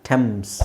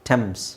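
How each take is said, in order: Both takes have the same delivery.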